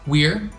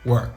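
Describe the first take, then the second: First: The word is said at a slower pace. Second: The word is said at a faster pace.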